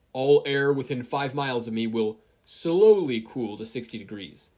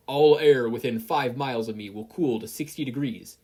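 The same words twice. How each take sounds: First: Corrected command. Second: Loud commanding decree; forceful order. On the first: Corrected order, slowly. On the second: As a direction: proclaim it like a law of nature. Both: Acted.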